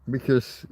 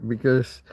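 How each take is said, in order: No difference in how they are said.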